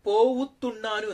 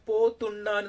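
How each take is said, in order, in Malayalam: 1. 'po'യ്ക്ക് ശേഷം അധികമായി ഒരു 'vu' അക്ഷരം വരുന്നു. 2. 'Po' നേരെ 'thunnanu'വിലേക്ക് ചേരുന്നു. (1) "നമ്മളെപ്പോഴും പോവുത്തുണ്ണാനു എന്ന് നമ്മൾ പറയും" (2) "ഇങ്ങനെ പോത്തുണ്ണാനു എന്ന് പറയാൻ"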